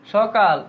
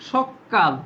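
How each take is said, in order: First: Said in the usual way. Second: সকাল said as sokkal with a held double k; doubled k. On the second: Shown as a demonstration. Teacher showing how সকাল gets a doubled k. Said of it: "তাহলে কি হবে?".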